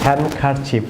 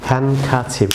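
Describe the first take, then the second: First: হ্যান্ডকারচিফ as "han-kar-chif", R sounded; common mispronunciation. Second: হ্যান্ডকারচিফ as "han-ka-chif", no D; silent D. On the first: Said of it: "এটিকে অনেকে আপনারা". (হ্যান্ডকারচিফ-এ র উচ্চারণ করে, "হ্যানকারচিফ") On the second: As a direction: leave out D and R in হ্যান্ডকারচিফ. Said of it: "এটি pronunciation হবে". (হ্যান্ডকারচিফ-এ ডি নীরব, "হ্যানকাচিফ") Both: Shown as a demonstration.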